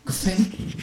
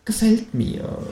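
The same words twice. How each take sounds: First: High, softer gefällt mir with a rise; kangaroo voice, softer. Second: High, satisfied gefällt mir; kangaroo voice, pleased. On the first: Känguru repeats its approval, softer and high. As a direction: repeat it quietly to yourself. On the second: Känguru approves the plan, high and pleased. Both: A narrator's reading.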